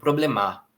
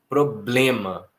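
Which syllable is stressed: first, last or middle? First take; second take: last; middle. First: The stress is on the last syllable. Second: The stress is on the middle syllable. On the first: The speaker calls it wrong. "também não é o mar, senão ficaria um problemar" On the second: The speaker calls it right. "A sílaba tônica é o blem"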